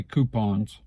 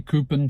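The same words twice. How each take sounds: First: Coupons as KOO-pahnz; alternative pronunciation. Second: Coupon with a weak ending, KOO-pun; others' pronunciation. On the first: Speaker showing the other variant, coupons as KOO-pahnz. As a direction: say coupons with a full "pahnz" ending. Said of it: "some people say coupons". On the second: Speaker showing how some people say it, coupon as KOO-pun. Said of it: "some people will say coupon". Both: Shown as a demonstration.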